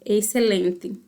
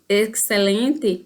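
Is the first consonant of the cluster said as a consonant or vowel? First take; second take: vowel; consonant. First: The first consonant of the cluster becomes a vowel. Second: The consonant cluster is pronounced in full. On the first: This is how Paraguayans tend to say it. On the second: This is the standard form of the word.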